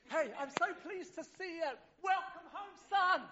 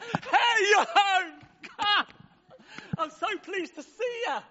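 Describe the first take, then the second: First: High but hushed, softer welcome home; a gentle embrace in the voice; tender father. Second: High, loud, bursting with joy at the homecoming; a father shouting his delight down the road; overjoyed father. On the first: Father quietly welcoming his son home, high and tender. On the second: Father running to greet his lost son, high, loud and overjoyed. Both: Acted.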